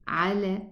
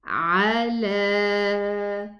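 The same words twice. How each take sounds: First: The fatha vowels are reduced. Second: The fatha vowels are full. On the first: The speaker calls it wrong. "don't say ala" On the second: The speaker calls it right. "Get the fathas"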